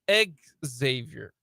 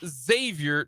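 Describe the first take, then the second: First: The name begins with an "ex" sound. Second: The name begins with a "zay" sound. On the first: The speaker calls it wrong. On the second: The speaker calls it right. "And they responded with Zay"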